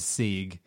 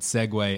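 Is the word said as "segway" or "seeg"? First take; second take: seeg; segway. First: It is said as one syllable, like "seeg". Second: It is said with two syllables, like "segway". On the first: The speaker calls it wrong. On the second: The speaker calls it right.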